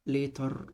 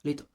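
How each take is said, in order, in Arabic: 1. صوت الراء في آخر الكلمة يُنطق بوضوح. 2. صوت الراء في آخر الكلمة لا يُنطق. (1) "ما بقولش later" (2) "قول later later later، ما بتحسش ان انا قلت الار"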